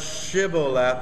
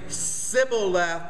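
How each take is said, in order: First: The word begins with a sh sound. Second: The word begins with a plain s sound. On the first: The speaker is from the hometown. The speaker calls it right. "had this sh sound" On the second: The speaker is not from the hometown. The speaker calls it wrong. "they couldn't say the sh sound"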